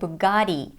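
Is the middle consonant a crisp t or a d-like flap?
flap. The middle consonant is a quick d-like flap. "because of the American flap T, which sounds like a fast D"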